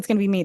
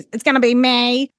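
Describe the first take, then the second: First: The last word ends with an 'ee' vowel. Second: The last word ends with an 'ay' vowel. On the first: "They never said it's gonna be me" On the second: "pronounce the E as an A"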